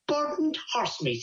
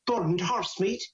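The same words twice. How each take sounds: First: Higher, drawn-out disbelieving repeat; incredulous echo. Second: Said in the usual way. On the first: Acted. Man echoing his neighbour's shocking news, acted disbelief. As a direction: echo it slowly, pitched up in disbelief.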